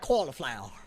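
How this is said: It is said in an imitated Southern American pronunciation. The speaker calls it wrong. "y'all are like cauliflower or something like that"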